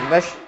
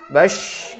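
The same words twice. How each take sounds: First: The final sh sound is cut off abruptly. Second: The final sh sound is slightly prolonged. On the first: The speaker calls it wrong. "Tidak langsung habis" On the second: The speaker calls it right. "tapi agak dipanjangkan"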